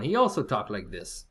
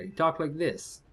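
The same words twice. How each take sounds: First: Lightly imitated Polish accent; a hint of a Polish coworker's accent. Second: Slow, lightly imitated Croatian accent. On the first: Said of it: "And I had a Polish one". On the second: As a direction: drawl it slowly like a Croatian coworker. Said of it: "I had this Croatian coworker".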